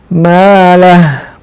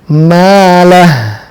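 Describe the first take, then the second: First: The word ends on a bare h sound. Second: The word ends on a bare h sound.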